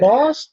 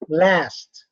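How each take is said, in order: First: The vowel is a long back ah sound. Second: The vowel is a short front a sound. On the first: "Lost is British" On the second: "It's not American"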